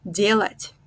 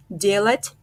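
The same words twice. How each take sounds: The two takes are said the same way.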